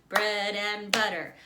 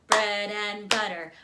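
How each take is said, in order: No difference in how they are said.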